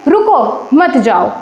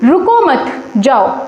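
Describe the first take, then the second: First: The pause comes right after 'ruko'. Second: The pause comes right after 'mat'.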